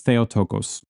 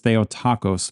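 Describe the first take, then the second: First: The ending does not sound like 'taco'. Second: The ending sounds like the word 'taco'. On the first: The speaker calls it right. "I'm going with Theotokos" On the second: The speaker calls it wrong. "that sounded like taco"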